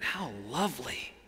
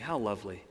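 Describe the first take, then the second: First: It is said with heartfelt, emphatic feeling. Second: It is said plainly, without much feeling.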